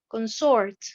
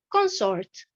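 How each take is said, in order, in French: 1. L'accent tombe sur la deuxième syllabe. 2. L'accent tombe sur la première syllabe. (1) "j'ai l'accentuation sur la deuxième syllabe" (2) "nous avons l'accentuation sur la première syllabe"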